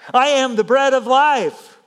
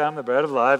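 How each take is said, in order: First: It is said boldly and forcefully. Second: It is said casually and offhandedly. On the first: It is a weighty claim meant seriously. The speaker calls it right. "This is a bold statement" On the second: It is a throwaway remark of little weight. The speaker calls it wrong. "He didn't kind of just prance around, say"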